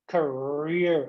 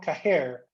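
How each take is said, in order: First: The R is pronounced strongly. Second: The R sounds like a soft H. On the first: The speaker calls it right. "the R sound, career" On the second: The speaker calls it wrong. "That's not career"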